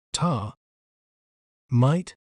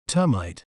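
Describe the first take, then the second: First: "tar", "mite" as two separate syllables with a long pause between; syllable-by-syllable breakdown. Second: Said in the usual way. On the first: Shown as a demonstration. Narrator breaking down the word for viewers, "tar", "mite" syllable by syllable. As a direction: split the word into "tar" and "mite", each standing alone. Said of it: "breaking down a word can make it clearer". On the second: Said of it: "We may pronounce it as".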